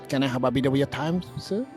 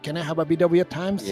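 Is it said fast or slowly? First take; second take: slowly; fast. First: It is said at a slower pace. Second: It is said at a faster pace.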